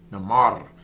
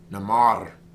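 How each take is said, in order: First: The R is rolled. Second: The R is rolled.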